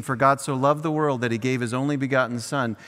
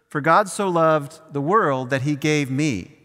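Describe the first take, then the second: First: Said in the usual way. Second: "me" pointedly stressed, sentence falls at the end. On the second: Shown as a demonstration. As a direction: lean on "me" as Jesus speaking of himself. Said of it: "gave, Jesus is saying".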